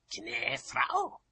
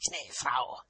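First: "Knäfrau" high, rising in disbelief; high-pitched questioning "Knäfrau"; indignant echo question. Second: "Knäfrau" as a falling, pointed statement; higher-pitched "Knäfrau", closing with a fall; pointed falling address. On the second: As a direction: drop the tune firmly on "Knäfrau". Formal address as parting jab. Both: A narrator's reading.

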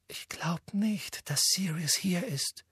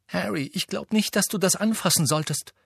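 First: Timid whisper, slow and higher; hushed, fearing his reaction; nervous whispered doubt. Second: Sharp warning, higher pitched; a clipped sharp warning to Harry. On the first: Hermine dares to doubt Harry. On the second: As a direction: cut him off sharply. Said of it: "sagte Hermine scharf". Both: A narrator's reading.

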